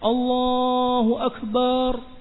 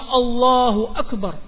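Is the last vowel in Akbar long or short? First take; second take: long; short. First: The last vowel of Akbar is drawn out long. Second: The last vowel of Akbar is kept short. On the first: The speaker calls it wrong. "ada alifnya" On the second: The speaker calls it right. "Yang seharusnya"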